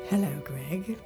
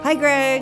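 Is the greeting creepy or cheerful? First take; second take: creepy; cheerful. First: The greeting sounds creepy. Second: The greeting sounds cheerful.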